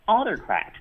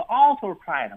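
First: AUtocrat, first syllable punched; front stress on autocrat. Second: Autocrat stressed off the first syllable; wrong stress on autocrat. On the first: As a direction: hit the opening of autocrat. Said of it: "它往前去读". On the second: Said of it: "重音呢在前啊，大家不要以为". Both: Shown as a demonstration.

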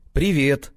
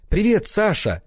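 First: A glum, reluctant hello; gloomy. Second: High bright greeting called out loud; joyful cry. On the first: Sasha answers his ex-fling, glum reluctant hello. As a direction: mumble it with no joy at all. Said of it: "уныло проговорил я". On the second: One-night lover greets Sasha, high joyful cry. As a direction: greet him like a thrilled lover. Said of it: "Радостно вскрикнула". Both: A narrator's reading.

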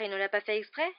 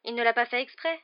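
First: Mildly raised, indignant question. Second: Higher, louder lilt, rising at the end; excusing a pet. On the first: Boy showing the rat hidden in his pocket, indignant. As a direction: throw the excuse back as a question. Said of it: "s'indigna Ron en montrant". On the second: Girl defending her new cat to friend, excusing lilt. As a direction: plead the pet's innocence. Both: A narrator's reading.

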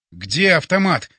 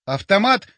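First: Loud, stunned demand; forced out. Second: Rising, absent-minded echo; detached. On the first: Hero sees the creatures and wants a weapon, strained urgency. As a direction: force the question out in alarm. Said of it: "выдавил я". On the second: Боря echoes the question about the weapon, detached. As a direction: repeat it as a dazed question. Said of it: "отрешённо повторил Боря". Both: A narrator's reading.

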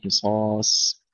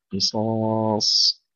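First: قصاص ending light, like a س; thin final ص. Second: Slow, drawn-out قصاص with full dark ص; heavy final ص. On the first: Teacher showing the error, قصاص with weakened final ص. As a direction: let the last ص of قصاص go thin. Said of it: "لا نقول". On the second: Teacher giving the correction, long قصاص with emphatic ص. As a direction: stretch قصاص and keep the last ص thick. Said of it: "تفخيم الصاد الأخيرة". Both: Shown as a demonstration.

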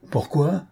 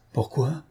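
First: "Pourquoi?" pitched higher with a sharp rising tune; the repeated "Pourquoi?" flung out higher; rising rage. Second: Quiet, bitter "Pourquoi?" asked under the breath; the first "Pourquoi?" kept quiet and tight; low held-back rage. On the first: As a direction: let the anger break out on the second "Pourquoi?". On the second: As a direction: swallow the anger on "Pourquoi?". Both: A narrator's reading. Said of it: "répondit-il avec rage".

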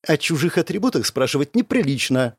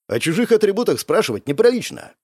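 First: Understated scolding, falling at the end; mild reproach. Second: Higher echo of her scolding, rising at the end; reproving. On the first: Girl reproaching her nosy friend, mild reproach. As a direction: gently put him in his place. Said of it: "укорила меня Беляна". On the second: Narrator checking the nosy girl, reproving. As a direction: check her with her own rule, pitched up. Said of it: "одёрнул я её". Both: A narrator's reading.

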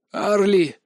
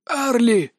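First: Said in the usual way. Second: Hoarse strained call of a name, higher; rasped. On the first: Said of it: "повторил я". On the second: A narrator's reading. Crushed under pressure, rasping the girl's name. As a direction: force the name out through a tight throat. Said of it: "просипел я".

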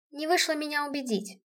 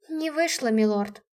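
First: Said in the usual way. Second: Mock-theatrical tease, lightly played. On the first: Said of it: "Я пояснила". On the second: A narrator's reading. Heroine teasing the stunned general, theatrical. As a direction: play it up for the general. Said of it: "наигранно произнесла я".

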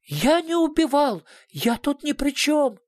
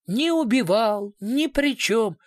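First: The director protests to the investigator, high and frantic; desperate denial. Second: Higher, slower taunting echo; mocking mimicry. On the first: A narrator's reading. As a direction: cry out innocence in panic. Cornered suspect desperately denies. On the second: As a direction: parody his whining denial. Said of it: "Что за детский сад?".

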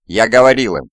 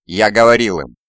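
First: Loud, raised accusation, not whispered; accusing outburst. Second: Loud, emphatic repeated accusation; accusing outburst. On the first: Shaken survivor blaming someone as for a grave crime, accusing. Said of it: "прошептал он". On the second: Shaken survivor repeating his charge against someone, accusing. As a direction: throw the blame out loudly. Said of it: "словно обвиняя кого-то в тяжком преступлении". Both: A narrator's reading.

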